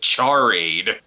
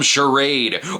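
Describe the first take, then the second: First: The title is pronounced an odd, childlike way. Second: The title is pronounced the usual, standard way. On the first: "as I pronounced it as a child" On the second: "it's the hit film Charade"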